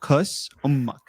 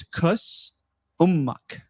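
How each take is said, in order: First: "Kus Ummak" run together in one breath; Arabic pronunciation. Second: "Kus Ummak" as two words, stress on Kus; Arabic pronunciation. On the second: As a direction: split "Kus" and "Ummak" with a short pause. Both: Shown as a demonstration. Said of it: "So it's".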